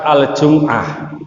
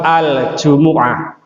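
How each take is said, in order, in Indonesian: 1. Tidak ada vokal yang terdengar setelah 'm'. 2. Bunyi vokal 'u' terdengar setelah 'm'. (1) "bukan surat Al-Jum'ah" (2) "kalau di Al-Quran itu suratnya surat Al-Jumu'ah"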